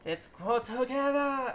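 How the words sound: It is spoken with a German accent.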